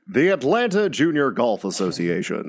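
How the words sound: It is said like a golf announcer.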